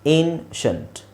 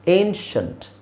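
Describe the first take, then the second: First: The ending is one syllable, 'shunt'. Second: The same.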